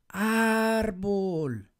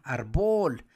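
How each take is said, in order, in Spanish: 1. La acentuación está en la primera sílaba. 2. La acentuación está en la última sílaba. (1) "voy a gritar la palabra árbol, ar" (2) "la fuerza estaría acá, arbol, pero no se escucha bien"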